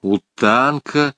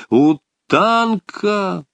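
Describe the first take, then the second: First: Said in the usual way. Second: High, drawn-out call of a name; a long, raised hail. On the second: A narrator's reading. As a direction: call to him, stretching the name. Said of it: "он крикнул подвижнику просто".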